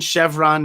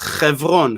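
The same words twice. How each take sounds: First: The word begins with a soft sh sound. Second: The word begins with a throaty kh sound. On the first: It names the gas station brand. "that gas station Chevron" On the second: It names the city of Hebron. "if you would pronounce it in Hebrew, would be the way we pronounce it"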